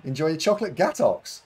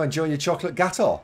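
First: Gatox ending in a hard "ks"; higher voice, falling on Gatox as "gat-ox"; mispronounced on purpose. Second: Gator ending on an open "aw", no final consonant; higher, with Gator falling on an open last vowel; pronunciation shown. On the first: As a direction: say Gatox with a clear x at the end. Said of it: "it's pronounced Gatox". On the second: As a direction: say Gator with no x at the end. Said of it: "It's pronounced Gator". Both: Shown as a demonstration.

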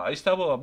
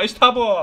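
First: Said in the usual way. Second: Loud, high cheer of İşte bu; excited cheer. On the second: Real, not acted. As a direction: shout İşte bu in triumph. Celebrates escape.

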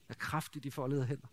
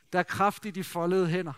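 First: Softer and lower, savouring the phrase; soft reverent repeat. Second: Said in the usual way. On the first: Shown as a demonstration. Preacher repeating the childhood saying to the congregation, soft and hushed. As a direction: let the saying sink in quietly. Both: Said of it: "det er i hvert fald vokset op med".

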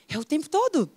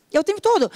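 First: Said in the usual way. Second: Higher, louder insistent repeat; emphatic. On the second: Shown as a demonstration. Coach insisting to students, higher and louder. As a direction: drive the point home on "todo". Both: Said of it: "repeated for emphasis".

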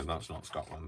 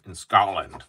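First: Said in the usual way. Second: Put-on louder, failed stab at a Scottish accent; bad Scottish accent. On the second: Crafter echoing his helper, unconvincing Scottish accent. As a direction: attempt Scottish and miss. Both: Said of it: "That's not a Scottish accent".

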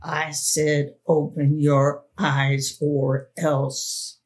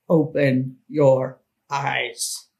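First: Lightly voiced threatening man, slow; hoarse whisper. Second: A hint of a menacing man, slowly; gruff command. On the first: The man threatening the frozen girl, slow and menacing. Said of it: "he said in a hoarse whisper". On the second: The man gruffly ordering the girl close to her ear. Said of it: "said gruffly in my ear".

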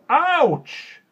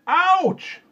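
First: Very high, loud yelp of pain; shrieked, falling OUCH; cried ouch. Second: Very high, loud pained yell; piercing, falling yelp; louder ouch. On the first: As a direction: yelp as if jabbed by barbed wire. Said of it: "he stooped down and said". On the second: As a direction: cry it out at full volume. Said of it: "He said it again, louder". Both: A narrator's reading.

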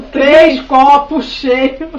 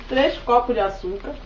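First: Loud, slow call from afar; shouted from another room. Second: Said in the usual way. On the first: Retold or imitated. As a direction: stretch it out like calling from the bedroom. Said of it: "Minha mãe gritou lá do quarto".

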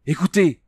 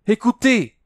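First: High, urgent call of listen; cry out. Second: Even higher, louder call; louder cry. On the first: Princess hearing trumpets, crying out high. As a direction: call out sharply. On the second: Princess repeating her cry, higher and louder. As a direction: call her out again more urgently. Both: A narrator's reading. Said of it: "cria-t-elle".

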